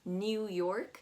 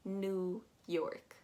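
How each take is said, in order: First: The vowel in 'New' is said harshly. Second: The vowel in 'New' is said softly, like 'noo'. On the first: The speaker calls it wrong. "I hear a lot of people pronouncing that E U very harshly" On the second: The speaker calls it right. "if you want to pronounce it the right way"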